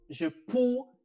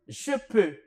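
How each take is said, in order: First: The vowel sounds like an 'oo'. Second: The vowel is a rounded 'eu' sound. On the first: The speaker calls it wrong. "les étudiants prononcent cette combinaison comme OU" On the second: The speaker calls it right. "je vais vous montrer étape par étape comment prononcer cette combinaison"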